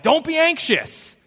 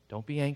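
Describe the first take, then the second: First: It sounds impatient and scolding. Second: It sounds gentle and reassuring.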